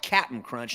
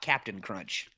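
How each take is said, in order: First: The first word is shortened to cap'n. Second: The first word is said in full, captain. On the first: This is the product's real name. The speaker calls it right. "The cereal is called" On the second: This is how people wrongly remember the name. The speaker calls it wrong.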